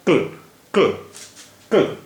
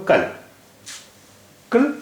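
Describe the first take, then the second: First: क्ल as a bare k straight into l; no vowel after k. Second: कल with short a between k and l; full vowel after k. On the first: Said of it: "अगर यहाँ पर जज़म होता". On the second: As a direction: open up the vowel in कल. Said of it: "इस पर ज़बर है". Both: Shown as a demonstration.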